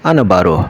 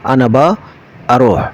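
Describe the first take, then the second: First: All the words run together into one word. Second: The first two words merge into one shortened word. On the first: "একদম সংক্ষেপে যেটা আরাবিয়ানরা বলে" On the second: "আরো সংক্ষেপে বলা হয়"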